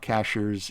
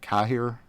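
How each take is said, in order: First: It sounds like the English word 'cashiers'. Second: It sounds like 'ka-heer', without an 'sh' sound. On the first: The speaker calls it wrong. "it's not Cashiers" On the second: The speaker calls it right. "it's like Kahir, I think"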